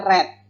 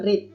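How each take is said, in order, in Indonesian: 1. Terdengar seperti warna red. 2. Tidak terdengar seperti warna red. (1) "tadi saya membacanya read" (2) "bukan read"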